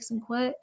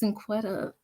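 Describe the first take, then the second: First: The name ends early, without the final syllable. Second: The name is said in full, with the final syllable. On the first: The speaker calls it wrong. "people be like Cinquet" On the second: The speaker calls it right. "I'm like it's Cinquetta"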